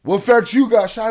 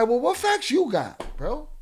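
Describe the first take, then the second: First: Loud sneering parrot of a viewer; mocking chatter. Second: Said in the usual way. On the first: Streamer mimicking a viewer's challenge, loud mock voice. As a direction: throw the viewer's question back mockingly. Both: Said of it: "he wanna tell me the same shit".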